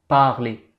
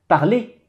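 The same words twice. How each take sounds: First: The first syllable is emphasized, sounding deeper. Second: The second syllable is emphasized, sounding higher. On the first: "En accentuant le A, un son qui va être assez grave" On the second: "là on sent que le mot, il est un petit peu plus aigu"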